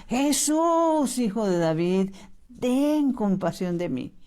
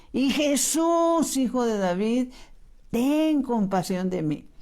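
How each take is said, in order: First: Mock crying out. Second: Higher, slow imploring call on Jesús; drawn-out pleading cry. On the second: Retold or imitated. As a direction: stretch the name out as a desperate plea. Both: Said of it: "y empieza a gritar".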